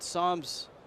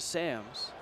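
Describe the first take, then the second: First: The name has its original Dutch pronunciation. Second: The name has an Americanized English pronunciation. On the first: This is how he is called now. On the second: This is how it may be said in the big leagues.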